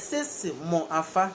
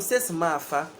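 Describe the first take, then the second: First: The middle word stays separate as mo. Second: The middle word merges with the next into ma. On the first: "there's sesi mo afa" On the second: "the mo and then the afa joins together"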